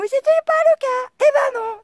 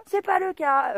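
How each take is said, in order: First: Loud, very high exasperated yell; shouted denial. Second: Said in the usual way. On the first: Real, not acted. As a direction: stretch it out in a high-pitched shout.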